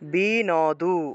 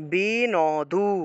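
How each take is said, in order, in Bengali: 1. প্রতিটি অক্ষর আলাদা করে উচ্চারিত হয়, n-এর পরে একটি স্বরধ্বনি আছে। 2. প্রতিটি অক্ষর আলাদা করে উচ্চারিত হয়, n-এর পরে একটি স্বরধ্বনি আছে।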